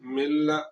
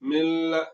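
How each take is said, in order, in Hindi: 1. मिला हुआ स्वर सादा है, इसमें नासिका का दीर्घीकरण नहीं है। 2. मिला हुआ स्वर नासिका युक्त और दीर्घ है।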